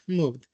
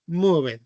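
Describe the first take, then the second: First: "moved" as one syllable ending in d; contracted ending. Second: "moved" in two syllables, ending in "-ed"; spelled-out ending. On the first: Teacher repeating the past form, "moved" in one syllable. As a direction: drop the e, "moved" as "moovd". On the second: Teacher showing students the past form, "moved" with -ed sounded. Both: Shown as a demonstration.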